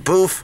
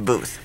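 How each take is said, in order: First: The word ends with an f sound. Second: The word ends with a th sound. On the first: This is how people talk around here. "We say boof" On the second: This is not how people talk around here. "we don't say booth"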